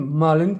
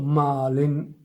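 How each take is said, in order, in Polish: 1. Pierwsza samogłoska jest krótka. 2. Pierwsza samogłoska jest długa. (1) "Nie mówimy malin" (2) "bo tutaj mamy dwa a"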